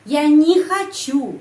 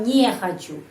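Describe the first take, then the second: First: Не said as "nee", high and loud; slow model with не pronounced "ni"; не reduced to "ni". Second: Не said with a clear "ye" vowel, "nye"; counterexample: не as "nye", not reduced; wrong full-vowel не. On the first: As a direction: stretch не into an emphatic "nee". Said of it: "Bunyinya i, bukan е". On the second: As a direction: say не as an open "nye". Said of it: "bukan не хочу". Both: Shown as a demonstration.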